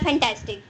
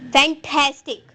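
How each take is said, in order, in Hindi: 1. Stress बीच वाले अक्षर पर नहीं है। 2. स्ट्रेस बीच वाले अक्षर पर है। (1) "आपने बोला फैंटास्टिक, इट इज रॉन्ग" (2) "मैंने ठैस के ऊपर जो है वो स्ट्रेस दिया"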